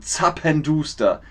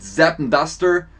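First: Zappenduster with initial ts and long oo; German pronunciation. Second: Zappenduster with English vowels, like "zeppen-duster"; anglicised mispronunciation. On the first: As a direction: say zappenduster as "tsappen-dooster". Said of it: "sondern zappenduster". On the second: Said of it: "nicht Zappenduster, sondern zappenduster". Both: Shown as a demonstration.

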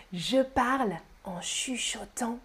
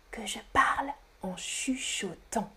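First: Said in the usual way. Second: Hushed, breath-only demonstration; whispering. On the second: Shown as a demonstration. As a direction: whisper it to show the manner.

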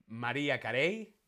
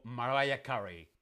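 First: "[name]" as ma-REE-a ka-RAY; Spanish pronunciation. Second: "[name]" as ma-RYE-a KA-ree; English pronunciation. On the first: Teacher offering the first quiz option, Spanish pronunciation. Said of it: "En España decimos [name]". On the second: Teacher offering the second quiz option, English pronunciation. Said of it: "no [name]". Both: Shown as a demonstration.

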